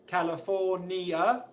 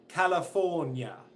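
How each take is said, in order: First: The ending is said as two syllables. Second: The ending is said as one syllable. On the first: "Some people will say it's two syllables, ni, a" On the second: "other people will say it's nya, one syllable"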